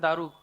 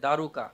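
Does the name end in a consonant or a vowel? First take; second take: consonant; vowel. First: The name ends on the consonant k. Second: The name ends on an added a vowel. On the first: This is how Bengali speakers say the name. "আমাদের বাংলা ভাষায় বলে দারুক" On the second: This is how Hindi speakers say the name. "Hindi ভাষায় দারুকা বলে"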